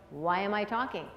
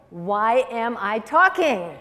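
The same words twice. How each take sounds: First: Said to herself. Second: Slow, loud, drawn-out punchline question; emphatic slogan reveal. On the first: Anxious mother reminding herself, softly to herself. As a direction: quietly ask it as if to yourself. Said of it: "she should be saying to herself". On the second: Speaker reveals what WAIT stands for, slow and emphatic. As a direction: land each word slowly and firmly. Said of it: "You know what it stands for?". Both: Shown as a demonstration.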